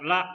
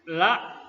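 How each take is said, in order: First: The vowel is cut short. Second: The vowel is held long. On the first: It means truly. "apabila la itu dibaca pendek" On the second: It means no. "dibaca panjang artinya tidak"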